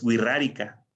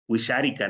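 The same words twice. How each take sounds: First: The x is said as a trilled r. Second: The x is not said as a trilled r. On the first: It follows the sound the speakers chose for the letter. The speaker calls it right. "esa X iba a representar ese sonido de la doble R" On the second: It is read the way the spelling suggests. The speaker calls it wrong. "mucha gente cuando lee el nombre de, de esa lengua dice"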